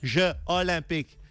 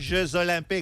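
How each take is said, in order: First: No z sound links the two words. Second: A z sound links the two words. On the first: The speaker calls it right. "on dit ... le S est aspiré" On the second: The speaker calls it wrong. "on ne dit pas"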